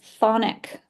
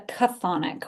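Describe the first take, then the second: First: The initial consonant sound is left silent. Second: The initial consonant sound is pronounced. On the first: "the C at the beginning is silent" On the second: "the person I learned it from pronounced it the chthonic, which I actually like better"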